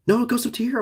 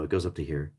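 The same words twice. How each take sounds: First: High excited correction. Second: Said in the usual way. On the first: Real, not acted. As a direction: jump up in pitch, amazed. Corrects himself, excited pitch.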